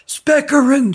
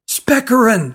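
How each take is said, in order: First: Much higher, full-throated yell; girl yelling for the magician at the top of her lungs. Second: High call into the trees; girl shouting for the magician in the woods. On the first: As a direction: yell it as high as you can. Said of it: "at the top of her lungs". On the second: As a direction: call out his name, high. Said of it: "she shouted into the trees". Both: A narrator's reading.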